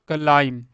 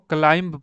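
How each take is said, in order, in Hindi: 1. आखिरी 'b' की आवाज़ साइलेंट होती है। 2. आखिरी 'b' की आवाज़ बोली जाती है। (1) "बी वर्ड है ये साइलेंट है" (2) "यानी बी को भी पढ़ेंगे"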